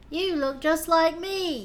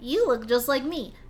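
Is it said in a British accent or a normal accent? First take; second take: British; normal. First: It is said in a put-on British accent. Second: It is said in the speaker's normal accent.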